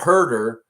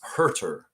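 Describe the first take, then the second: First: The name sounds like 'herder', as in herding sheep. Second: The name sounds like 'hurt' plus 'er'. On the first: The speaker calls it wrong. "It's not herder like uh, herding sheep" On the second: The speaker calls it right. "It's Herter"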